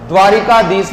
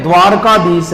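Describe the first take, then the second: First: "ri" in the middle of द्वारिकाधीश; द्वारिकाधीश with an added i after r; wrong extra i. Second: "r" straight into "kaa" in द्वारकाधीश; द्वारकाधीश without i after r; correct, no i. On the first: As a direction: say द्वारिकाधीश as dvaa-ri-kaa-dheesh. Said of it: "द्वारिकाधीश नहीं है". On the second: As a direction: say द्वारकाधीश as dvaar-kaa-dheesh. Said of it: "द्वारकाधीश है". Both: Shown as a demonstration.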